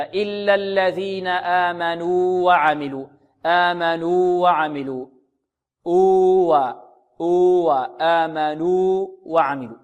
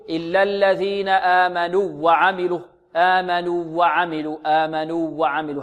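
First: Slow recitation, the long waw of آمنوا held two beats, then a clean new waw in وعملوا; clear separate waws. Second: آمنوا وعملوا said slowly with the two waws merged into one doubled waw; slow recitation blending the waw of آمنوا into وعملوا; wrong merged waw. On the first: Teacher shows students the right way to keep the two waws apart. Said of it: "تظهر من الواو الثانية، هكذا". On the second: Teacher shows students the mistaken merging of the waws. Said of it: "لعل بعض الطلاب يقول". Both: Shown as a demonstration.

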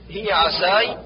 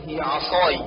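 First: عساي with thin s for ص; thin the ص of عصاي to س; sad as seen. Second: عصاي with heavy emphatic s; true sad. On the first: Teacher shows the error, عساي with light s. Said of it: "جعل الصاد سينا". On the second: Teacher corrects, عصاي with full emphatic s. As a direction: darken the ص in عصاي. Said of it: "والصواب". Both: Shown as a demonstration.

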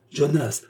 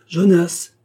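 First: Calling a servant. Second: Second call, much louder and higher. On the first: Baroness summoning her servant Jonas, a first higher call. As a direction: call his name across the house. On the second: Baroness calling Jonas again from the next room, loud shout. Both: A narrator's reading. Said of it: "appela-t-elle".

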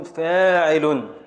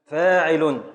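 First: Slow scansion. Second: Said in the usual way. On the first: Shown as a demonstration. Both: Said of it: "النون سكون".

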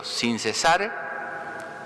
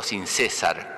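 First: "sin cesar" said slowly, stress on the last syllable of cesar. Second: "sin César" with the stress on the first syllable, CÉ-sar. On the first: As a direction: draw out "sin cesar", weight on -sar. (acento en "cesar", dicho despacio) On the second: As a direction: land on the CÉ of "César". (acento en la primera sílaba de "César") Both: Shown as a demonstration. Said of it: "¿Ve? Y el acento está, y cambié la palabra".

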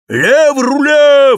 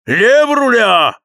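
First: High, slow, shouted command; shouted order. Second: High, slow, loud command; shouted order. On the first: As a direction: bellow the order across the deck. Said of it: "вскричал Кэп". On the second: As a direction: roar the order into the wind. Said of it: "ворчал Кэп". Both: A narrator's reading.

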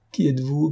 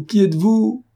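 First: Said in the usual way. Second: Much higher and louder, rising; the repeat breaks upward in alarm; stammered cry. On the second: A narrator's reading. Beaupré repeating his question to Cernine in alarm. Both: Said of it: "balbutia Beaupré".

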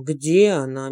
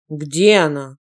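First: Slow repeat. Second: Loud furious bark; barked roar. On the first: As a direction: drag the question out slowly. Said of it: "медленно повторил он вопрос". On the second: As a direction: roar it so the walls shake. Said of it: "гаркнул так, что стены задрожали". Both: A narrator's reading.

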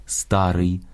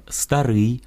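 First: «старий» as Russian стАрый, stressed on the first syllable. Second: «старий» stressed on the final syllable, старИй; Ukrainian stress. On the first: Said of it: "російське". («старий» — російською, наголос на «ста») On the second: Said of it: "українське". («старий» — наголос на «рий») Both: Shown as a demonstration.

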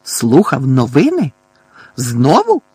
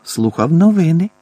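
First: Forceful, disbelieving repeat of his excuse; indignant echo. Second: Higher, polite answer lifting at the end; polite explanation. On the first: Outraged uncle echoes the boy's excuse, indignant. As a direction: throw it back as an outraged question. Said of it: "Тітка і дядько обмінялися обуреними поглядами". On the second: Boy explains himself to aunt and uncle, politely. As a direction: explain it courteously, pitch raised. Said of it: "чемно пояснив Гаррі". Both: A narrator's reading.

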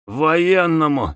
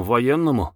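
First: "Военному" drawn out in indignation; slow, offended echo of "Военному"; angry repeat. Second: Said in the usual way. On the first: A narrator's reading. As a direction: throw "Военному" back slowly, crossly. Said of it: "сердито повторил офицер". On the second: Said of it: "сказал Самгин".

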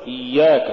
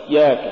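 First: إياك with a smooth doubled y; iy-yak, unbroken glide in إياك; soft flowing ya. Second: إياك broken after the first syllable; short ik-like stop, gap, yak in إياك; choked-off ya. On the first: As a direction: let the y run in إياك. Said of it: "قل". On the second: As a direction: cut the doubled y dead in إياك. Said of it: "ولا تقل". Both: Shown as a demonstration.

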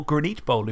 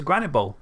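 First: Granite said as gruh-NEET; alternative pronunciation. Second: Said in the usual way. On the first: Shown as a demonstration. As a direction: stretch Granite into "gra-NEET", stress at the end. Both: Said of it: "if you want to pronounce it like that".

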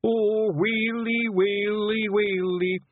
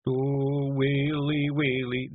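First: High, drawn-out comic wail; keen slowly in hammed-up Scots sorrow; wailing grief. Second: Higher, milder comic keening; starting a wail. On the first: Simpleton mourning his leader, theatrical sobbing wail. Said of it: "he sobbed". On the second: Simpleton starting to mourn before being hushed, mild wail. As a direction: begin to moan mournfully in Scots. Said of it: "Daft Woolly began". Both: A narrator's reading.

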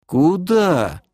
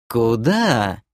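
First: High-pitched, baffled query; puzzled question. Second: Mild, measured voice at usual pitch; demoness's question. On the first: Elf is told to send her away, puzzled. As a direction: ask it in blank bewilderment. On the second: Demoness asks the elf where to go, mildly curious. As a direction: ask it with calm curiosity. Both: Acted.

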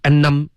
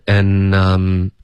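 First: "and I'm" punched hard at each onset, tailing off; higher, jabbed and I'm with light endings; top-heavy. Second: "and I'm" slow, both syllables held evenly; one consistent breath through and I'm; even airflow. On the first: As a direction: hit the starts of and, num, then let go. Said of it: "是头重脚轻". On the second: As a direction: draw out and I'm with steady weight. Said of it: "可是要一致". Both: Shown as a demonstration.

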